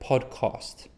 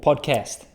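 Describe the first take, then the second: First: The word is said with a non-American accent. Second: The word is said with an American accent.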